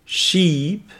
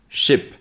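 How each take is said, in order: First: Sheep with a long ee, pitched up. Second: Ship with a short lax i. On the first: Repeating the pair for learners, long ee in Sheep. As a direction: hold the ee in Sheep. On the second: Repeating the pair for learners, short i in ship. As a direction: clip the i in ship. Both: Shown as a demonstration. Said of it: "Donc je répète les deux mots".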